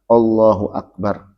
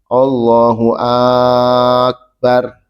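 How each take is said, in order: First: Akbar is said plainly, with nothing lengthened. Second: The first vowel of akbar is drawn out long. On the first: The speaker calls it right. "harus jelas mengucapkan akbar" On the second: The speaker calls it wrong. "Jangan dipanjangkan hamzahnya. ... Tak boleh"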